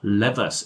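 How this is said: The word is said the American way. "if you prefer the American pronunciation"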